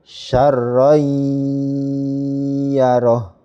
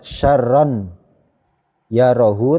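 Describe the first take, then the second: First: The n sound merges into the y, nasalized. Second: The n sound stays separate before the y. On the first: The speaker calls it right. "Tanwinnya ini jadi langsung dimasukkan ke huruf ya" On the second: The speaker calls it wrong.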